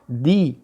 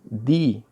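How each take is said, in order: No difference in how they are said.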